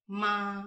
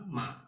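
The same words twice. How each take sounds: First: The pitch stays high and level. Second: The pitch dips low and then rises.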